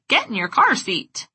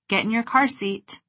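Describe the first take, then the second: First: It is said in a silly, goofy voice. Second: It is said in a relaxed, warm tone. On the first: "With a wacky facial expression and a goofy voice" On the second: "With a relaxed face and a warm tone of voice"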